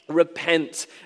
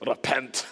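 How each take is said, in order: First: It is said in the speaker's usual accent. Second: It is said in a Scottish accent.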